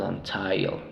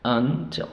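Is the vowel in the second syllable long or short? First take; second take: long; short. First: The second-syllable vowel is long. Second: The second-syllable vowel is short. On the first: The speaker calls it wrong. "No decimos until, no" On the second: The speaker calls it right. "Il suena, suena corto"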